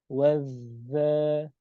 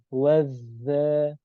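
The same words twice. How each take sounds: Both takes have the same delivery.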